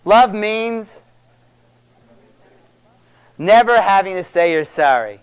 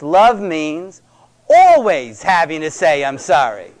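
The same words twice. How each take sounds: First: Quoted line, weight on never; famous movie quote. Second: Corrected line, weight on always; corrected version. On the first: Retold or imitated. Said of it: "movie in the seventies can fill in the blank". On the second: Shown as a demonstration. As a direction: lean on always to correct the quote. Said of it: "that's what love means".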